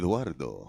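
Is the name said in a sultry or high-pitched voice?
sultry. It is said in a sultry, sexy voice.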